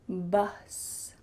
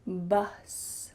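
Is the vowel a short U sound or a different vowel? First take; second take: short U; short U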